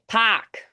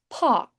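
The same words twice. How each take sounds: First: It is said in a Boston accent. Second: It is said in a British accent.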